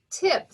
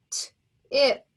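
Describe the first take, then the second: First: "Tip" said as one quick blended syllable, a bit higher; blended back together. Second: "T-ip" split into its sounds, t then ip; sounding out. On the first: Teacher blending the syllable again for students, whole and smooth. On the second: Teacher sounding out the syllable for students, sounds split apart. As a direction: stretch "T-ip" into its separate sounds. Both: Shown as a demonstration. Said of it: "First syllable".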